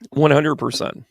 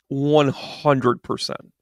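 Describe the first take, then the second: First: Said in the usual way. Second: Drawn out at half speed, each word weighted; slow emphatic repeat. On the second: Real, not acted. Confirming a point to the listeners, slow and emphatic. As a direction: stretch out "One hundred percent" deliberately.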